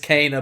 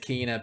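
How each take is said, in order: First: The name is said as Kana. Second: The name is said as Kina. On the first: The speaker calls it right. "it's Kana" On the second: The speaker calls it wrong. "idiots are gonna pronounce it Kina"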